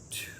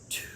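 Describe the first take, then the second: First: It is spoken in a soft whisper. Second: It is spoken in a soft whisper.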